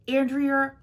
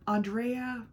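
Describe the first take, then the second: First: Andrea as "AN-dree-uh"; Andrea: short a, "AN-dree-uh"; Andrea said two ways. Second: Andrea as "ahn-DRAY-uh"; Andrea: open ah, stress on DRAY; Andrea other way. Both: Shown as a demonstration.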